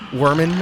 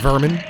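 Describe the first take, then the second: First: The name begins with an English W sound. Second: The name begins with a V sound.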